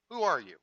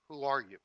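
First: Raised voice calling out to a stranger; storyteller's contained yell; yelling back. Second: Milder echo of a call; lightly raised echoing reply; echoed answer. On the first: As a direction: call it out across the mountains. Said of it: "the boy yells back". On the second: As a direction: answer back like a mountain echo. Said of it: "he receives the answer". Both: Retold or imitated.

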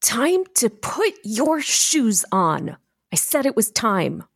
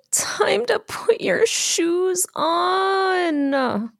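First: Slow, high-pitched parental insistence; controlled parent on the edge; trying to stay controlled. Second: Very slow, high, whispery sigh; high, drawn-out plea of a drained parent; exhausted. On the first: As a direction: draw out each word, struggling to stay in control. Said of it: "I'm trying to be in control". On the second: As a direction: sigh it out, every word dragged and drained. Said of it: "I am exhausted". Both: Shown as a demonstration.

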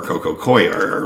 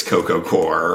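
First: "Coir" said as COY-er; OY glide in "Coir", COY-er; variant pronunciation. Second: "Core" said like apple core; one syllable in "Core", OR vowel; variant pronunciation. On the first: Guest weighing both variants, "Coir" as COY-er. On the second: Guest weighing both variants, "Core" as one syllable. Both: Shown as a demonstration. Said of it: "however you wanna pronounce it".

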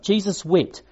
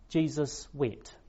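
First: Louder "Jesus wept" with a strong stress on "Jesus"; emphatic repeat. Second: Quiet, slow, solemn "Jesus wept" with each word laid down gently; hushed reading. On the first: Preacher repeating the verse to press the point, emphatic. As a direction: hit "Jesus" hard, then drop on "wept". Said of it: "It's a very different response". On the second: Preacher reading the verse to the congregation, hushed and slow. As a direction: let "Jesus wept" fall softly and slowly. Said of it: "two short words recorded". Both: Shown as a demonstration.

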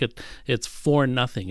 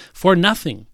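First: Said in the usual way. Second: "For nothing" punched higher and louder; stress on FOR NOTHING. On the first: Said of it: "the emphasis actually is in the first words". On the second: Shown as a demonstration. Preacher stressing "For nothing" to his congregation, punched. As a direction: hit "For" hard, then let "nothing" fall. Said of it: "It's a place of emphat-, emphasis".

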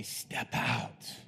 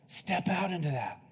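First: Hushed, breathy urging to step out; whispered "Step out" dropped low and soft; urged whisper. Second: Said in the usual way. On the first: Shown as a demonstration. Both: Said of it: "I'm saying this to inspire you to say".

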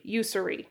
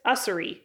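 First: "Ussery" opening like the word you; YOU-suh-ree pronunciation. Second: "Ussery" opening on a short uh; UH-suh-ree pronunciation. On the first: Vlogger trying another guess at the surname, "Ussery" as YOU-suh-ree. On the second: Vlogger guessing an author's surname, "Ussery" as UH-suh-ree. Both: Shown as a demonstration. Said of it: "do not know how to pronounce his name".

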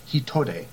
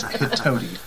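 First: Hitode said hee-toh-deh, Japanese vowels; Japanese pronunciation. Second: Hitodi said hih-TOH-dee, English vowels; anglicized pronunciation. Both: Shown as a demonstration. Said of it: "I'm not gonna say Hitode every time".

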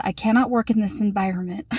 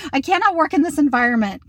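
First: Said in the usual way. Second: Higher, quicker melodramatic read of a text; hammed-up exasperation, pitched up and rushed; mock overwrought complaint; dramatic. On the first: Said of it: "I texted my husband and I said". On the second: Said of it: "I'm so dramatic".

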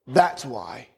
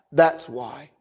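The two takes are said the same way.

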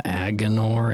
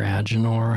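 First: "Agenor" with a hard g; hard-g pronunciation. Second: "Agenor" with a soft g; soft-g pronunciation. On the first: Host unsure of the name, "Agenor" with hard g. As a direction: say "Agenor" as AG-uh-nor, g as in go. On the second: Host correcting the name, "Agenor" with soft g. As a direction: say "Agenor" as AJ-uh-nor, g like j. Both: Shown as a demonstration. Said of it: "however you say that".

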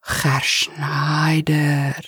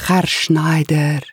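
First: Put-on slow, whispered, half-begging plea in Spanish accent; begging or angry. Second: Put-on slow Spanish-accented address; Spanish-accented butler. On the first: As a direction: stretch his name out, pleading and cross. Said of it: "almost in a begging tone or, or angry". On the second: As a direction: call him slowly, Spanish accent. Eustacio's accented voice.

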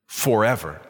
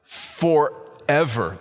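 First: "forever" set apart after a pause, dropped lower; weighted FOREVER. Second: "Forever" stretched very slowly in two parts, FOR... EVER; drawn-out FOREVER. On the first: Preacher quoting God's promise to David, "forever" low and weighty. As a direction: land "forever" low and final. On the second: Preacher asking listeners to think about that, "Forever" slowly drawn out. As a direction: break "Forever" open and dwell on each half. Repeats the word to ponder it. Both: Real, not acted.

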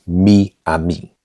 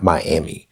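First: "Miami" as mee-AH-mee, slowly; Spanish pronunciation. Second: Said in the usual way. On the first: Shown as a demonstration. Learner correcting himself after the English version, "Miami" said mee-ah-mee. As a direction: say "Miami" with Spanish ee sounds, drawn out. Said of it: "pronounced like E in Spanish". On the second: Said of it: "it's not Miami".

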